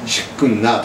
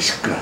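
First: An extra n sound comes before the ending. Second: No extra n sound comes before the ending. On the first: The speaker calls it wrong. "シックンナーとは言わないで" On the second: The speaker calls it right. "シックナーって言います"

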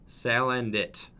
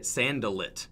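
First: The l sound comes before the n sound. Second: The n sound comes before the l sound. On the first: The speaker calls it right. "saying it correctly" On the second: The speaker calls it wrong. "I used to say it Sandalit"

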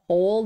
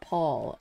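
First: The name has a strong rounded 'oh' vowel. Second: The name has an open 'aw' vowel. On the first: The speaker calls it right. "Strong O sound. Pole. Pole, not Paul" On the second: The speaker calls it wrong. "not Paul"

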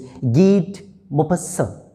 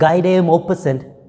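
First: The name is said with its native pronunciation. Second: The name is sounded out following its English spelling. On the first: The speaker calls it right. "the real pronunciation is" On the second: The speaker calls it wrong. "when you read it by its spelling, you may read it"

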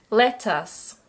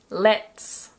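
First: It is said as two full words. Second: It is said as one contracted syllable.

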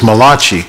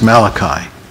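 First: The name has an Italian-sounding pronunciation. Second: The name has a plain English pronunciation. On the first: The speaker once took the prophet for an Italian. The speaker calls it wrong. "I thought he was an Italian prophet" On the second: This is the corrected form of the name. The speaker calls it right. "somebody corrected me and said, no"

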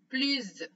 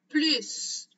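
First: The word ends with a z sound. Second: The word ends with an s sound. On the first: "quand on fait la liaison. Et dans ce cas-là, on va prononcer z" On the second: "c'est en prononçant la lettre S à la fin"

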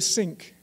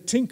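First: The word begins with an 's' sound. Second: The word begins with a 't' sound. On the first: The speaker sounds German or French. "which will make you sound like a German or a French person" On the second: The speaker sounds Irish. "You can say tink as well. You sound like an Irish person"

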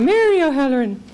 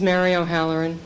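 First: The name is said in an Irish accent. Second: The name is said in a plain, non-Irish accent.

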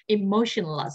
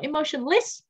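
First: The final syllable has a weak, reduced vowel. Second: The final syllable has a full, clear vowel. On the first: The speaker calls it right. "đuôi ESS mọi người đọc là dạ" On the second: The speaker calls it wrong. "từ này không đọc là emotionless"

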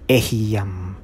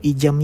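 First: It begins with 'eh', said as 'eh-hee-yam'. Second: It begins with 'ee', said as 'ee-jam'. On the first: The speaker calls it right. "kundi ehiyam. Yan po ang tamang bigkas dyan" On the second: The speaker calls it wrong. "hindi po ijam yan ha"

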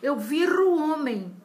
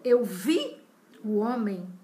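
First: An r sound links vi to o. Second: No r sound appears between vi and o. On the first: The speaker calls it wrong. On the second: The speaker calls it right.

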